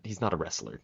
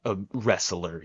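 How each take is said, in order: First: Said in the usual way. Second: "wrestler" drawn out slowly; stress on "wrestler". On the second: Shown as a demonstration. Fan means a true grappler, stressed slow "wrestler". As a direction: lean on "wrestler", stretching it out. Restates the word with emphasis.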